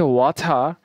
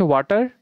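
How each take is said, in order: First: British ওয়াটার with airy t, no final r; British accent. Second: Bangladeshi ওয়াটার with hard t and final r; Bangladeshi accent. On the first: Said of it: "British accent". (British উচ্চারণে "ওয়াথা") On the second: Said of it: "আপনি চারটে accent বলে". (বাংলাদেশি উচ্চারণে "ওয়াটার") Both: Shown as a demonstration.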